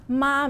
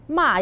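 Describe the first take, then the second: First: The pitch stays high and level. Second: The pitch falls sharply from high to low. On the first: It means mother. "Ma means mommy" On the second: It means to scold. "Ma is like I score some people"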